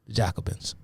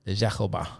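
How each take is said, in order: First: Said in the usual way. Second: "Jacobins" with a French zh and the final s dropped: zha-ko-BAH; best French accent on "Jacobins". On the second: Shown as a demonstration. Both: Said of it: "the best French accent I can muster".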